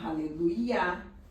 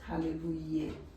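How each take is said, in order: First: The word ends with a 'yah' sound. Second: The word ends with a 'yeh' sound. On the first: The speaker calls it right. "Você fala Aleluia" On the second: The speaker calls it wrong. "Você não fala Aleluia"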